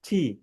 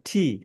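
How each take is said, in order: Both takes have the same delivery.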